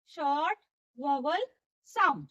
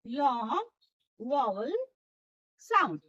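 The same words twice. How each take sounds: First: "short व्हॉवेल sound" word by word, briefly held; short vowel term. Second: "long व्हॉवेल sound" stretched slowly, with wide gaps; drawn-out long. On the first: Teacher dictating the term, "short व्हॉवेल sound" in separate words. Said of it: "त्याला काय म्हणायचं?". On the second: Teacher showing long vowels, "long व्हॉवेल sound" drawn out slowly. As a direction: draw out "long", then low "व्हॉवेल", falling "sound". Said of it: "त्याचा उच्चार लांबट अशा प्रकारे होत असतो". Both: Shown as a demonstration.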